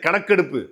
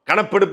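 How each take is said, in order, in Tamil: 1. நடுவில் உள்ள மெய்யெழுத்து k ஒலி. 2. நடுவில் உள்ள மெய்யெழுத்து p ஒலி. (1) "அது கணக்கெடுப்பு" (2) "கணப்பெடுப்பு இல்லையா"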